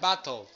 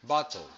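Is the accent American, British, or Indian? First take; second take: Indian; British. First: It is said in an Indian accent. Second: It is said in a British accent.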